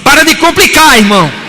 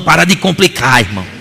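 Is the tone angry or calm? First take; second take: angry; calm. First: It is said in an angry tone. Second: It is said in a calm, plain tone.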